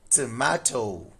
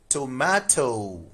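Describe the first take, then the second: First: It is said in a British accent. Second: It is said in a British accent.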